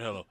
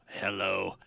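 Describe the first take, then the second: First: Said in the usual way. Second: Low, robotic talking-toy voice; Speak & Spell voice. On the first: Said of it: "you type in the word hello". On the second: Retold or imitated. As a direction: say it like a machine reading typed text. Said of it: "human version of a speaking spell".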